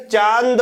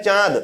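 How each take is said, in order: First: चांद as chaand, with a hard full n before d; wrong full-n reading. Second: चांद as chãad, nasal aa and no n; चांद, long nasalized vowel straight into d. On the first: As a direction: say चांद with the n fully sounded. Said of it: "पढ़ेंगे तो गलत उच्चारण होगा". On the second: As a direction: say चांद with air through nose and mouth. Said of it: "तो अनुनासिक". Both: Shown as a demonstration.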